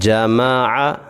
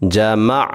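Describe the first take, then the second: First: The word is read in full with a final vowel. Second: The word stops on the final consonant. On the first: "इसको मुकम्मल कैसे पढ़ेंगे" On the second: "और रुकना कैसे है"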